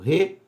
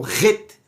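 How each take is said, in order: First: The syllable is said very weakly and softly. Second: The syllable is said strongly and fully. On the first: The speaker calls it right. "um som de Re bem fraquinho" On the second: The speaker calls it wrong. "não é o Ret"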